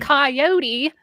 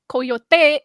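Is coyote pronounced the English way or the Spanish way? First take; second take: English; Spanish. First: The word is pronounced with English sounds. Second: The word is pronounced with Spanish sounds. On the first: "coyote or coyote is the bonkers English way of pronouncing coyote" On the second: "coyote is the Spanish way of pronouncing that"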